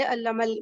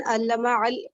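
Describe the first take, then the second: First: علم ال- run together as "allamal"; joined article. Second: علم ال- in two separate words, slow, with a fresh 'a' starting ال; unjoined article. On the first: Teacher showing students the connecting hamza, علم ال- joined up. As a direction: link علم straight into ال-, dropping the alif's vowel. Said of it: "ملا دیا ہم نے". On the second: Teacher showing students the reading not used, علم ال- unjoined. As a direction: pronounce علم ال- slowly, keeping the alif of ال audible. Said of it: "قرآن نہیں کہہ رہے". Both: Shown as a demonstration.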